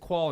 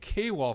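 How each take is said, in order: First: The name is said as one syllable, 'kwal'. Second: The name starts with the letter K, then 'wall'. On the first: The speaker calls it wrong. "I don't think it's Qual and Twall" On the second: The speaker calls it right. "I think it's K-Wall for life"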